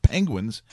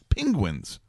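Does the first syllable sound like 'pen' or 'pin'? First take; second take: pen; pin. First: The first syllable sounds like 'pen'. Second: The first syllable sounds like 'pin'. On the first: The speaker calls it wrong. "Not Penguins" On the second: The speaker calls it right. "Like P-I-N? Yes"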